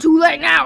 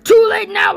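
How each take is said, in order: First: It is said in a country singer's accent. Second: It is said in a heavy cartoon villain accent. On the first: "I'm a country singer now" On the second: "he just has the most, like, accented voice, and he's like"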